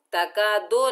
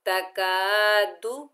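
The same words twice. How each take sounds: First: तका दो with the ending stretched to o; wrong long do. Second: तकादु ending in a short du. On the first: Teacher showing the wrong reading. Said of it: "ये मजहूल है". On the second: Teacher demonstrating the correct तकादु. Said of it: "तका दो नहीं पढ़ना". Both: Shown as a demonstration.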